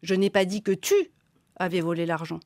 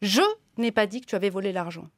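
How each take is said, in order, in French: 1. L'accent tombe sur le mot tu. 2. L'accent tombe sur le mot je. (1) "j'ai dit que quelqu'un avait volé l'argent, mais j'ai pas dit que c'était vous" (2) "ça a été dit, mais c'est pas moi"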